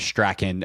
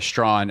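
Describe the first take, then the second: First: The name is said as 'Strachan'. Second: The name is said as 'Strawn'. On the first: The speaker calls it wrong. "what we had previously been saying is Strachan" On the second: The speaker calls it right. "by the way, Strawn"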